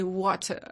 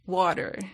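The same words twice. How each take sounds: First: Water is said with a British pronunciation. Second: Water is said with a non-British pronunciation. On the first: The speaker calls it right. "you say water." All the the British English" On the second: The speaker calls it wrong. "You don't say water"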